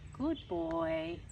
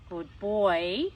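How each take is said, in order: First: The voice sounds warm, soft and encouraging. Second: The voice sounds stern, grumpy and warning. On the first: Keep going, you are doing well. "if we want to use a holding pattern, we might use the tone" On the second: This is a warning to stop. "a really stern, grumpy tone"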